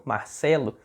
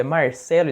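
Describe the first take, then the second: First: "Marcelo" with a soft Bahian R; the rejected Bahian "Marcelo", R as an h; Bahian accent. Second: "Marcelo" with a clear Paraná R; Paraná accent. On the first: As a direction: Bahian accent, R barely sounded. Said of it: "amigos meus de lá da Bahia falam". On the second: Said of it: "não tá falando do jeito que eu tô". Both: Acted.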